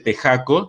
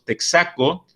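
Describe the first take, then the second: First: The x is a rough throat sound like j. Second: The x is sounded as ks. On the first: The speaker calls it wrong. "nadie dice tejaco" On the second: The speaker calls it right. "curiosamente decimos texaco"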